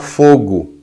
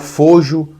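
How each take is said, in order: First: The g is hard, as in go. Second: The g is soft, like a zh sound. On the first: "Você fala fogo" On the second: "ou você fala fojo, foge, seguindo outra métrica"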